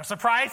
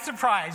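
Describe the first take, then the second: First: Surprise said loud with a rising tune; sarcastic surprise. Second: Surprise said loud, falling flat to close; dry sarcastic surprise. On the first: Pastor teasing the congregation about his CrossFit habit, louder, rising. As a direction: tease the crowd, surprise going up. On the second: Pastor finishing the joke to the congregation, louder, falling. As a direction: land it deadpan, surprise dropping down. Mock surprise about CrossFit again. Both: Acted.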